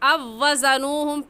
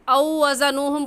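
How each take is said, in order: First: The w sound is merged and held doubled. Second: The first word ends in a separate 'au' glide. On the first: The speaker calls it right. "सही है" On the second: The speaker calls it wrong. "पढ़ना गलत है"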